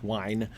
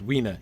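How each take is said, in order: First: The ending is one syllable without a final vowel. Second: The ending is two syllables with a final vowel. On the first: The speaker calls it wrong. "so it wouldn't actually be pronounced wine" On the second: The speaker calls it right. "it would be pronounced Weena, with stress on the first syllable"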